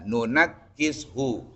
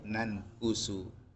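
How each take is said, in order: First: The k is doubled and followed by i. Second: The k is single and followed by u. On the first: This is the usual reading. "kalau tadi kita bacanya kan" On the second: This is another reciters' reading. "sukunkan nun yang kedua, dan mendomahkan huruf kaf tanpa tasydid"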